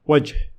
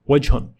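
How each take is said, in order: First: The word ends on a bare consonant. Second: The word ends with a vowel and n sound. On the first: The speaker stops after the word. "If I stop" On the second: The speech continues after the word. "If I continued speech"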